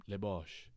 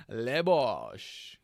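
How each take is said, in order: First: Said in the usual way. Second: "Le Bosch" in a loud, laughing, hammed-up French accent with a long falling "Le"; laughing French-accent catchphrase; mock French accent. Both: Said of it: "and he's like, "Le Bosch".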